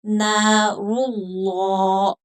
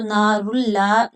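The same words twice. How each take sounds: First: नारुल्लाह very slow, dark drawn-out "llaw"; heavy lam. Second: नारुल्लाह with a light, open "llaa"; thin lam. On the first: Teacher models full thick lam, slow नारुल्लाह. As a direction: fill the mouth on नारुल्लाह, rounded and long. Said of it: "पुर करके पढ़ेंगे मोटा". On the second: Teacher shows what not to read, thin lam in नारुल्लाह. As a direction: keep the l of नारुल्लाह thin and unrounded. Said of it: "लाम को बारीक नहीं पढ़ेंगे". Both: Shown as a demonstration.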